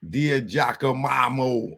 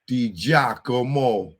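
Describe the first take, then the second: First: Dia Giacomo fumbled as "DEE-uh jacka-MAH-mo"; Dia Giacomo stretched into "Dia Jackamamo"; butchered name. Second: Measured Di Giacomo, "dee JAH-ko-mo"; correct pronunciation. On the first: Real, not acted. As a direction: garble Giacomo with an extra "ma" syllable. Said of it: "sorry to be butchering it". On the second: Shown as a demonstration. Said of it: "That's how you say it".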